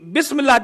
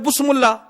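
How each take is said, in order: First: The first vowel after b is i. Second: The first vowel after b is u. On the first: The speaker calls it right. "हकीकी बिस्मिल्लाह जब तक जेर ना हो" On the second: The speaker calls it wrong. "कोई पढ़ दे बुस्मुल्ला, बुस्मुल्ला भी रोंग"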